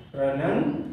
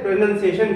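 First: pronunciation split in two with a long pause; broken into parts. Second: Said in the usual way. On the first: Shown as a demonstration. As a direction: say pronunciation softly in separate chunks. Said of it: "pronunciation के हिसाब से". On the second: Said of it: "कह सकते हैं".

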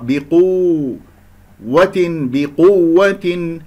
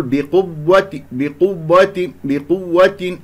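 First: بقوة slowly, leaning long into the doubled و; clear doubled waw. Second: بقوة short, the first half of doubled و lost, pitched up; wrongly swallowed waw. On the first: Teacher making the waws audible, slow clear held و in بقوة. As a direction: stretch both halves of و in بقوة. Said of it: "هكذا أسمع صوت الواوات بوضوح". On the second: Teacher demonstrating a mistake, raised-pitch بقوة with an unheld و. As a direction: rush through the و in بقوة. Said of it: "هكذا خطأ". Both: Shown as a demonstration.

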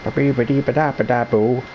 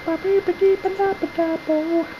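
First: Bouncy babble in the usual register; nonsense scat. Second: Very high-pitched nonsense syllables; squeaky scat. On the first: Player fills time with a silly jingle, nonsense scat. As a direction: rattle off nonsense syllables at speaking pitch. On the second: Player repeats the silly jingle, squeaky scat. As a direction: babble it way up in a tiny high voice. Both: Pretend.

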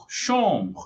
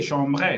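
First: Chambre with silent final E, ʃob; chambre, mute final E; French chambre. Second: Chambre with the final E said, chambre-e; mispronounced chambre, voiced E; wrong chambre. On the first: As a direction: swallow the E of chambre. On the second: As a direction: sound the E at the end of chambre, the wrong way. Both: Shown as a demonstration. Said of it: "Não é chambre".

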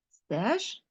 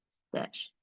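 First: Said in the usual way. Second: Whispered root. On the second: Shown as a demonstration. Teacher to pupils, echoing the root "стеж" in a whisper. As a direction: whisper "стеж" softly, almost no voice.

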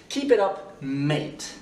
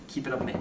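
First: Cheering, affectionate. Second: Said in the usual way. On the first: Shown as a demonstration. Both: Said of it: "la partie, euh, affective".

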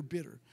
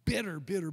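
First: "bitter" dropped much lower and softer, trailing off; low and quiet. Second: Breathy whispered bitter, bitter with no voice. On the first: Preacher lingering on the taste for the congregation, low quiet. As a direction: let "bitter" sink low and fade. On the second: Preacher recalling vomit's taste to congregation, whispered. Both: Retold or imitated. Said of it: "It came up like this".

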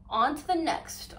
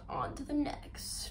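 First: Said in the usual way. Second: Slow whispered repeat; hushed echo. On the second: Real, not acted. Vlogger moving on to the next activity, whispered. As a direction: whisper it slowly, trailing after yourself. Echoes own words in a whisper.

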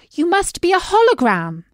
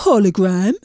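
First: Higher, louder sudden guess; excited princess. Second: Lower, rising baffled echo of "hologram"; puzzled fish. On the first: Princess sure the fish is a hologram. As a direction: blurt it out, pleased with the idea. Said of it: "princess guesses". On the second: Fish puzzled by the princess's word. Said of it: "asked the fish". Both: A narrator's reading.

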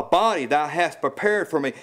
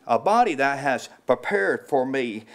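First: Said in the usual way. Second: "A body" picked out with emphasis, then a small break; stress on A BODY. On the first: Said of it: "we read this with an emphasis". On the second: Shown as a demonstration. Preacher rereading the verse to his congregation, emphasis on "A body". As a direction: lean on the words "A body". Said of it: "with an emphasis on a body".

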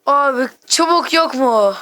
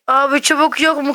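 First: Louder, slowly stretched "çubuk yok mu"; whiny, slowed-down complaint about no sticks; slow, drawn-out plea. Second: Louder, brisk "Abi çubuk yok mu"; brisk, louder repeat of the complaint; quick exasperated ask. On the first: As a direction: drag the words out in dismay. Desperately looking for sticks. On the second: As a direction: fire the question off fast. Asks again for sticks. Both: Real, not acted.

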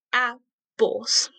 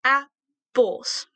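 First: Apples split into two beats; syllables under chin. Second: Apples in two beats, slightly raised; together syllable count. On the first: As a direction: say ap-ples slowly, feeling the chin drop. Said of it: "putting our hand underneath our chin". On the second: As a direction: say ap-ples with the class. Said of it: "Let's try it together now". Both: Shown as a demonstration.

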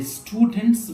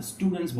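First: "স্টুডেন্টস" with a puff after the first t; exaggerated aspirated t in "স্টুডেন্টস"; wrongly aspirated t. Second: "স্টুডেন্টস" with no puff after the t; plain hard t in "স্টুডেন্টস"; unaspirated t. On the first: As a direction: say "স্টুডেন্টস" as "s-thudents". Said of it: "এটা স্টুডেন্টস বলবো না". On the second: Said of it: "স্টুডেন্টস বলবো". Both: Shown as a demonstration.

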